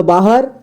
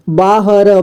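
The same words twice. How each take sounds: First: Said in the usual way. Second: "बाहर" split as baa-ha-ra; beginner's reading of "बाहर" as baa-ha-ra; sounded out letter by letter. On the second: Shown as a demonstration. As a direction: voice each letter of "बाहर", final ra included. Teacher sounds out, then reads whole.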